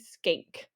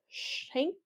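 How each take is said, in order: First: The name starts with an 'sk' sound. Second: The name starts with an 'sh' sound. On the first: The speaker calls it right. "but it's actually skank" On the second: The speaker calls it wrong. "it looks like you want to pronounce it as shank"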